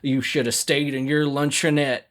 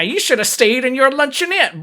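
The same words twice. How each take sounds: First: It is spoken in a Southern American accent. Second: It is spoken in a New Jersey accent. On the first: "I guess they wouldn't say it with a Southern accent" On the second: "they're supposed to be like from New Jersey"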